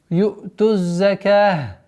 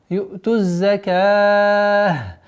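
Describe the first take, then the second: First: The long vowel is held for two counts. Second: The long vowel is held for four counts. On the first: "варианты появляются два" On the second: "четыре"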